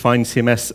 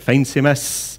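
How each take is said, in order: First: The first word rhymes with wine. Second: The first word rhymes with rain. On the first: The speaker calls it right. "I argue that it's fine C M S" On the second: The speaker calls it wrong. "half the people I was speaking to were calling it Feign C M S"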